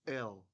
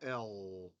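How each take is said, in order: First: The tongue taps up briefly for the L. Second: The tongue rests in place for the L. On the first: The speaker calls it right. "So this is the first one" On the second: The speaker calls it wrong. "Not L"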